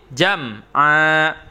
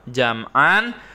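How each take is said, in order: First: The word ends with a lengthened a, no n. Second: The word ends with a short a and n. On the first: "tanwinnya hilang dan memanjangkan atau ainnya menjadi panjang dua harokat" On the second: "jam'an itu ada fathah tain"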